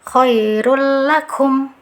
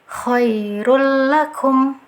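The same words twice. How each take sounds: Both takes have the same delivery.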